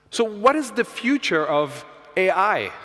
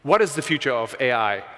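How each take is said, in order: First: Slow and clear for the machine. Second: Said in the usual way. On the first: Real, not acted. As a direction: speak slowly so the computer understands. Reads question into the AI mic.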